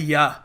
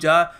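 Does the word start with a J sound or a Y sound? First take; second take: Y sound; J sound. First: The word begins with a Y sound. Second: The word begins with a J sound. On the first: This is how local people read the spelling. "ये लोग इसको पढ़ते हैं या" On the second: This is how outsiders would read the spelling. "ये हम लोग पढ़ेंगे इसको जा"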